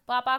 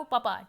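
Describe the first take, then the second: First: Said in the usual way. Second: पपा with a short first vowel; dropped long vowel. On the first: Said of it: "स्वर का लोप". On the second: Shown as a demonstration. Teacher quoting a child, पपा with shortened vowel. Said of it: "स्वर का लोप कर रहा है".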